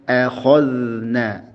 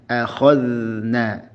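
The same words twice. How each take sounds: The two takes are said the same way.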